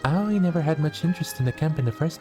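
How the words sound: It is read in a put-on character voice.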